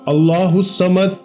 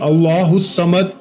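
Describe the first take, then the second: Both takes have the same delivery.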